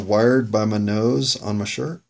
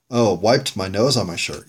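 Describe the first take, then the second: First: Slow, questioning read, rising at the end; puzzled reading. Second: Sudden recognition, falling at the end; realization. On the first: Host puzzling over his own scrawled note, puzzled. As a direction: read it out slowly, unsure of the wording. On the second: Host working out his own note, realization. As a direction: read it as the corrected version, settled. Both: Real, not acted.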